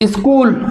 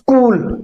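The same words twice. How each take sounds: First: The opening s is not a bare half sound. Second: The opening s is a bare half sound. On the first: The speaker calls it wrong. "गलती कर देते हैं, इसे ऐसे pronounce कर देते हैं" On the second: The speaker calls it right. "आधे सा की ध्वनि निकलेगी"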